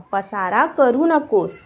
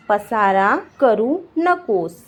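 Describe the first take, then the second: First: Said in the usual way. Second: Slow, each word on its own; slow teaching repeat. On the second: Shown as a demonstration. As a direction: dictate it to beginners slowly. Teacher repeats slowly for learners. (शब्द-शब्द अलग, धीरे)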